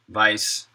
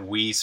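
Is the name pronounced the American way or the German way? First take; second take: German; American. First: The name is said with German pronunciation. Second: The name is said with American pronunciation. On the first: This is the original form of the name. "I do have a German name" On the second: This is how the family says it locally. "But we pronounce it Weiss for some reason"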